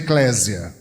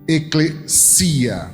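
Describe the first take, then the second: First: The middle consonant is a buzzing Z sound. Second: The middle consonant is a hissing S sound. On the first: This is the usual Portuguese form. "com som de Z" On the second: This is the original Greek form. "um som de S"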